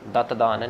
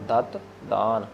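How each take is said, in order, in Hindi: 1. अक्षरों की ध्वनियाँ एक इकाई की तरह आपस में जुड़कर बोली जाती हैं। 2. अक्षरों की ध्वनियाँ एक-दूसरे से अलग-अलग बोली जाती हैं। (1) "दत दान नहीं" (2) "अक्षर को जोड़ना नहीं, अलग अलग है वो"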